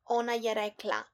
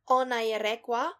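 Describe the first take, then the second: First: The last syllable is pronounced la. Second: The last syllable is pronounced wa. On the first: This is the standard form. "instead of" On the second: This is the dialect form. "The group la is pronounced wa"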